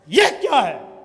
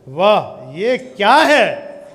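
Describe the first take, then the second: First: It sounds angry and scolding. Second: It sounds amazed and admiring.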